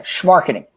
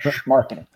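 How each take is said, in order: First: Schmarketing with a scraped throaty sch; schmarketing said from the back of the throat. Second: Schmarketing low and soft with a throaty sch; Schmarketing with a guttural sch. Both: Shown as a demonstration. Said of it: "Gotta say the back of your throat there".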